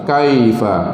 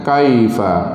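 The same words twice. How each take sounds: Both takes have the same delivery.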